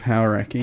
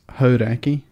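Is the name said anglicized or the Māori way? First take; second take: anglicized; Māori way. First: The name is said with anglicized pronunciation. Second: The name is said with Māori pronunciation. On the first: The speaker calls it wrong. "Instead of" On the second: The speaker calls it right. "I'm glad you've said that correctly"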